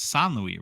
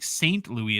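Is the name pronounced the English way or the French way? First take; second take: French; English. First: The name is said with a French pronunciation. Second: The name is said with an English pronunciation. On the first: The speaker calls it right. "it's Saint Louis, right?" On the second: The speaker calls it wrong. "instead of like Saint Louis"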